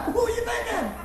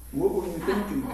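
First: High, laughing replay of the question; laughing mimic. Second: Said in the usual way. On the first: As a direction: tease it back through laughter, pitched up high. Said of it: "I don't know what I was thinking". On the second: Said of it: "and I say".

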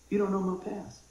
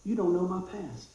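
Both takes have the same delivery.

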